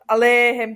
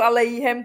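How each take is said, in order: First: The E vowel is drawn out long. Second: It is said in an Ashkenazi-style pronunciation. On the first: "tohleto je dlouhé E" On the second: "to je taková trošku jako aškenářská výslovnost"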